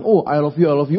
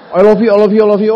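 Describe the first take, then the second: First: Said in the usual way. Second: Louder and higher, gushing; excited mother's spam. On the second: Retold or imitated. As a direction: pile it on like an overjoyed mom. (ucapan sayang ibu yang heboh dan keras) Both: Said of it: "saya di spam chat".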